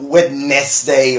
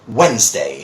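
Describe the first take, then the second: First: Every syllable, with the d, is said in full. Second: The middle is dropped, leaving two syllables. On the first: The speaker calls it wrong. "It's not Wednesday or something like that" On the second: The speaker calls it right. "you take this out, and you take this out"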